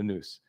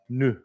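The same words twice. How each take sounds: First: The word is given a Greek pronunciation. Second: The word is given a French pronunciation. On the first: The speaker calls it right. "It's the nous" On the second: The speaker calls it wrong. "It's not the French we pronoun. It's not nous"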